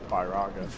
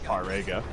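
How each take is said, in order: First: The vowel before the g sounds like 'ah'. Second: The vowel before the g sounds like 'eh'. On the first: The speaker calls it right. "I wouldn't have a sharp A there" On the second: The speaker calls it wrong. "not Firega"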